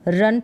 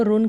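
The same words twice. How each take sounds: First: रन said as "run" with an "uh"; short "uh" vowel. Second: रुन said as "roon" with a u vowel; wrong "oo" vowel. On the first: Teacher showing pupils the right reading, रन with "uh". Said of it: "रन पढ़ेंगे इसको". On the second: Teacher warning pupils of a misreading, रुन with a u sound. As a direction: misread it as रुन, rhyming with book-style u. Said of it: "रुन करके उच्चारण नहीं होगा". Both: Shown as a demonstration.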